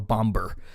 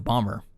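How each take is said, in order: First: The middle b sound is clearly pronounced. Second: The middle b sound is left silent.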